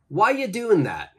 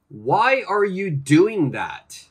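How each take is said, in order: First: 'Are you' blends together and the final G drops. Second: Every word is said fully and clearly.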